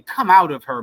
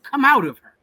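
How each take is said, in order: First: A firm call of the Lord's command; lightly voiced divine command; voice of God. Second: Higher and louder, a preacher's cry; a ringing divine cry to leave; shouted command. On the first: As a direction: say it as God calling his people out. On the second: Retold or imitated. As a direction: cry it out as God's urgent call. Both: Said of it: "That's the voice from God".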